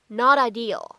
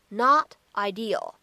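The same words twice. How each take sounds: First: The words run together with a flapped t. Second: The words are kept apart with a clear t. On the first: "可以做一个连读，在美式发音当中呢还有一个闪音的处理" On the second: "如果你不做连读呢，也是完全可以的"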